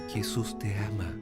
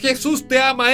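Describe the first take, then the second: First: It is said softly and gently. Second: It is said loudly, like the line before.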